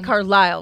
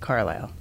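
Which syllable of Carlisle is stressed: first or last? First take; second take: last; first. First: The stress is on the last syllable. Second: The stress is on the first syllable. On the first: This is how the other person says it. "you say Carlisle with the emphasis on the last syllable" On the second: This is how the speaker says it. "whereas I would say Carlisle"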